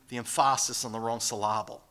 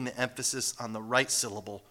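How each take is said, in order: First: "emphasis" and "syllable" stressed on their second syllables, em-PHA-sis, syl-LA-ble; wrong-syllable stress. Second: Said in the usual way. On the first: Shown as a demonstration. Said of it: "putting the emphasis on the wrong syllable". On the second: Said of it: "putting the emphasis on the right syllable".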